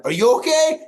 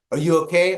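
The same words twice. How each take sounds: First: High, loud mock-panicked question; panicked retort. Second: Said in the usual way. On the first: Son-in-law firing the question back after the quake, panicked. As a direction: blurt it back, pitch shooting up. Retelling his frantic reply to her.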